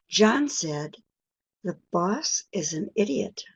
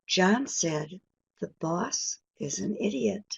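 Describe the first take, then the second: The two takes are said the same way.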